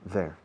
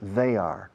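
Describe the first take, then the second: First: It is contracted into one syllable. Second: It is said as two full words.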